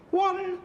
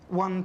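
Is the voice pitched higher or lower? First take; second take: higher; lower. First: It is said in a higher voice. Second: It is said in a lower voice.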